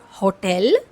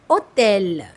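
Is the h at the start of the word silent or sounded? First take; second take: sounded; silent. First: The h at the start is sounded. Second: The h at the start is silent. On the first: The speaker calls it wrong. "It's not hotel" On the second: The speaker calls it right. "it's hotel. Means letter ash is a silent letter here"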